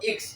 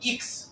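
First: The letter name starts with an 'eh' vowel. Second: The letter name starts with an 'ee' vowel. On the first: This is how the class will say the letter. "আমরা উচ্চারণ করবো এক্স" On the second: This is how Italians say the letter. "এক্সটাকে ওরা বলে থাকে ইক্স"

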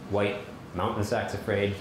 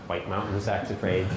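First: The word white carries the main stress. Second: The word mountain carries the main stress. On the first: The speaker calls it right. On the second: The speaker calls it wrong.

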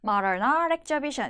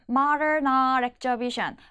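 First: The words run smoothly together, linked. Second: The words are said separately, not linked. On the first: The speaker calls it right. "이렇게 부드럽게 연결이 되는 소리" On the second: The speaker calls it wrong. "이 아니라"

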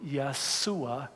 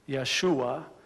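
First: The middle consonant is an s sound. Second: The middle consonant is an sh sound. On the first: This is the Arabic form. "in Arabic. ... we use the s sound" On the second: This is the Hebrew form. "in Hebrew"

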